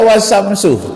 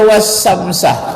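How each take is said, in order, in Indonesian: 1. Kata itu diakhiri vokal u. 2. Kata itu diakhiri vokal a. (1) "tak boleh dibaca" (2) "tak boleh dibaca"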